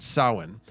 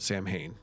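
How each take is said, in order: First: The word is said the traditional Irish way. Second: The word is sounded out as spelled. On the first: This is how the people of the tradition say it. "they pronounce it Samhain" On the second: This is the speaker's habitual pronunciation. "I've always called it Samhain"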